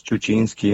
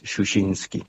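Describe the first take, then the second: First: Chuchinski with "ch" sounds, as in Argentina; "ch" in both syllables of Chuchinski; Argentine pronunciation. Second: Shushinsky with soft "sh" sounds, as in Europe; "sh" in both syllables of Shushinsky; European pronunciation. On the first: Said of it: "en Argentina lo pronunciamos". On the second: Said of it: "en Europa es Shushinsky". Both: Shown as a demonstration.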